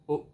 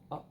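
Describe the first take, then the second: First: The vowel is a rounded oo sound. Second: The vowel is an open uh sound. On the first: This is how some northern and Celtic speakers say it. "people from those places that I mentioned, they might say like up" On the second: This is the usual standard form. "instead of"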